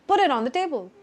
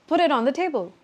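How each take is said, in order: No difference in how they are said.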